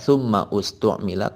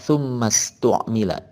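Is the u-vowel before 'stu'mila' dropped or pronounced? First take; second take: pronounced; dropped. First: The u-vowel is sounded between the two words. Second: The words run together without the u-vowel. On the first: The speaker calls it wrong. "tidak dibaca tsumma ustu'mila" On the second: The speaker calls it right. "di sini dibaca tsummastu'mila"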